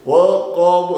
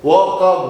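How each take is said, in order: First: वक़ब ending with a bouncing b; qalqala on b. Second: Said in the usual way. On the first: Shown as a demonstration. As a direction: let the ब of वक़ब echo. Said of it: "कलकला करेंगे". (वक़ब में ब पर कलकला) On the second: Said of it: "तो वक़ब नहीं कहेंगे".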